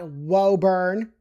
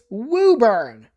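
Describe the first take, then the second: First: The first vowel sounds like 'oh'. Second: The first vowel sounds like 'oo'. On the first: The speaker calls it wrong. "It is not Woburn" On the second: The speaker calls it right. "So the O is kind of like another U"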